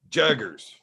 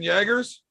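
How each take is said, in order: First: The name is said with its real pronunciation. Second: The name is said like the drink Jager. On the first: The speaker calls it right. "but his last name is Jaggers" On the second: The speaker calls it wrong. "I like calling him Austin Jaggers"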